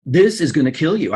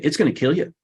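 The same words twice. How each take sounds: First: THIS punched with a falling tune; stress on THIS. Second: Said in the usual way. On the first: Retold or imitated. The doctor warning the filmmaker off the diet: stress on This. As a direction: lean hard on the word This. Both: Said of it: "his doctor told him".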